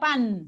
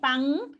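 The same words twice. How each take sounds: First: The final n is made at the teeth, dental. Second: The final n is made at the back, velar. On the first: "puedo pronunciar la N más dental" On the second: "Como un sonido velar, la N"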